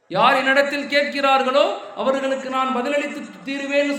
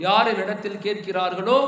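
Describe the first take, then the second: First: கேட்கிறார்களோ pushed out louder with a rising end; louder emphatic repeat. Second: Said in the usual way. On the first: Shown as a demonstration. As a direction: preach it out, hammering the promise home. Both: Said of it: "repeated with force".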